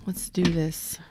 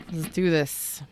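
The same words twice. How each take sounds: First: Hushed voiceless whisper. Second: Said in the usual way. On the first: Shown as a demonstration. Reader whispering to live viewers before the spread. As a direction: breathe it like a secret. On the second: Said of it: "repeated as whisper".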